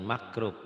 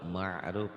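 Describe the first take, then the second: First: The middle consonant is a hard k sound. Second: The middle consonant is a throaty ain sound. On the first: The speaker calls it wrong. "Jangan makrub" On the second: The speaker calls it right. "ma'ruf ya"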